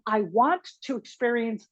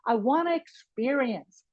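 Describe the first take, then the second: First: "Want to" is said as two full words. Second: "Want to" is reduced and linked as wanna. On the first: "Instead of saying" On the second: "I can say, I wanna"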